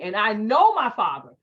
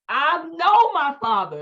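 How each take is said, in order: First: Said in the usual way. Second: KNOW stretched out slow, high and loud; emphatic stress on KNOW. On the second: Real, not acted. Wife warning listeners about her father, KNOW drawn out emphatically. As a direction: lean hard and long on "know".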